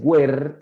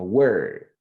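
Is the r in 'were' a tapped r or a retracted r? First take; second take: tapped r; retracted r. First: The r is tapped with the tongue. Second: The r is made with the tongue pulled back. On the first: The speaker calls it wrong. "no es were rebotando la lengua" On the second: The speaker calls it right. "la lengua va a ir un poquito más atrás en la boca"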